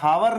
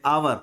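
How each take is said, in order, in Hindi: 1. यह शब्द 'h' ध्वनि से शुरू होता है। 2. यह शब्द स्वर ध्वनि से शुरू होता है। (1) "ये वास्तव में हावर नहीं है, ये ह से तो नहीं आ रहा" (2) "इसका उच्चारण हम आवर, इस तरह का कुछ बोलते हैं"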